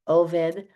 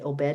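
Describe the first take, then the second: First: The middle consonant is a v sound. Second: The middle consonant is a b sound. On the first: "I say Oved because that's the proper Hebrew way to say it" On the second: "Some people say Obed"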